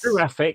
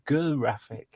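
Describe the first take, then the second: First: The word begins with a soft j sound. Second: The word begins with a hard g sound. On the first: The speaker calls it wrong. "Not giraffic. It's not giraffic" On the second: The speaker calls it right. "graphics is a is a good graphic"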